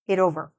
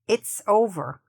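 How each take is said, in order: First: No S sound follows it. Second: A clear S sound follows it. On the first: The speaker calls it wrong. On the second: The speaker calls it right.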